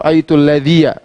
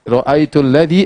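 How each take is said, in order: First: The last word ends with an added ya syllable. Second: The last word ends in a plain i vowel. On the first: The speaker calls it wrong. "Jangan kita baca" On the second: The speaker calls it right.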